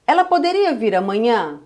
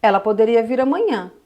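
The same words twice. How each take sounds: First: Asked as a question, rising tone; Portuguese question tone; question intonation. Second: Said as a statement, falling at the end; Portuguese statement tone; statement intonation. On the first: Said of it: "Eu falo assim pra você". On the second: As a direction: say it as a flat statement. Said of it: "eu viro e falo assim pra você". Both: Shown as a demonstration.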